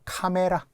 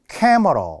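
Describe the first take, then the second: First: It is said with full Korean vowels. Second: It is said with English-like reduced vowels. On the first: This is the established loanword form. "투박하죠" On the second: This follows the original pronunciation. "원래 캐머러거든요. 발음에 의하면"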